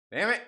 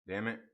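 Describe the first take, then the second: First: Loud, higher damn it; real irritation, snapped out; frustrated outburst. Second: Said in the usual way. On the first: Real, not acted.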